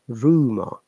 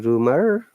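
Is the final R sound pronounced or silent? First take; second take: silent; pronounced. First: The final R is silent. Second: The final R is clearly pronounced.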